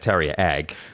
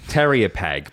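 First: The P at the start of Peg is silent. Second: The P at the start of Peg is pronounced. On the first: The speaker calls it right. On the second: The speaker calls it wrong.

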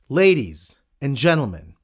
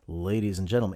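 First: The greeting is said in a lively, energetic way. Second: The greeting is said in a flat, dull way. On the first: The speaker calls it right. "let them know they're alive" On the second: The speaker calls it wrong. "it's not"

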